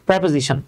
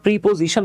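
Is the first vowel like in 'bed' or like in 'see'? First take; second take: bed; see. First: The first vowel sounds like 'e' in 'bed'. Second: The first vowel sounds like 'ee' in 'see'. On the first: The speaker calls it right. "Real pronunciation হচ্ছে প্রেপোজিশন" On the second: The speaker calls it wrong. "আমরা প্রিপোজিশন বলি"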